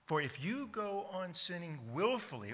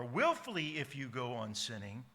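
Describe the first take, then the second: First: Said in the usual way. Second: Willfully moved to the front and leaned on, rising; stress on willfully. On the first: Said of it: "Whatever word's up front is usually to indicate that this is the emphasis". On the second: Shown as a demonstration. Preacher showing the Greek word order, stress up front. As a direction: put the weight on willfully first. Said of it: "Willfully, by the way, stands at the front of the sentence".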